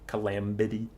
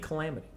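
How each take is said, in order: First: A B sound is pronounced in the middle. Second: No B sound is pronounced in the middle. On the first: "I can't stop myself from doing it" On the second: "it could just be Calamity. You don't have to say the B"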